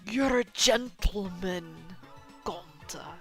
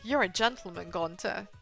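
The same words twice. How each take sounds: First: It is said in a put-on Hagrid voice. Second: It is said in a plain, normal voice.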